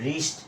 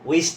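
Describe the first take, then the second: First: The word starts with an r sound. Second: The word starts with a w sound. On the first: The speaker calls it right. "এটা হবে রিস্ট" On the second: The speaker calls it wrong. "আসলে এটা উইস্ট না"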